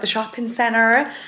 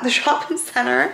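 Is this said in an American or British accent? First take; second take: American; British. First: It is said in an American accent. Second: It is said in a British accent.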